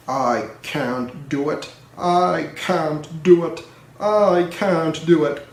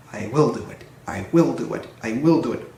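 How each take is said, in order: First: Slow, labored chant; slow puffing. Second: Brisk low rhythmic puff; puffing rhythmically. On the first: Gordon stuck on the hill, slow puffing chant. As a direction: drag each word like a straining engine. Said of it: "puffed Gordon". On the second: Edward pushing Gordon uphill, brisk puffing chant. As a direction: chug the words like pushing hard. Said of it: "puffed Edward". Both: A narrator's reading.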